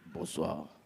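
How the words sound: The greeting sounds posh and moneyed. The person saying it is wealthy. "Mais lui, bonsoir. Tu sens qu'il y a l'argent ici"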